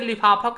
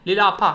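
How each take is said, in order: First: The second consonant is an f sound. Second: The second consonant is an l sound. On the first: The speaker calls it right. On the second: The speaker calls it wrong.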